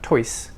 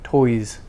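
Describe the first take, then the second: First: The final S is a voiceless hiss. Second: The final S is a voiced buzz. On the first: The speaker calls it wrong. "not toys" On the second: The speaker calls it right. "so the S becomes voiced"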